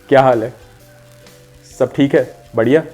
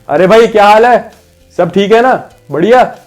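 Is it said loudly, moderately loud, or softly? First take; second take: softly; loudly. First: It is said softly, as to someone close. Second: It is said loudly, as to someone far away.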